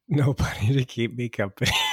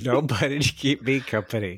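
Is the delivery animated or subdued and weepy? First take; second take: subdued; animated. First: It is said softly, subdued and weepy. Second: It is said in a lively, animated way.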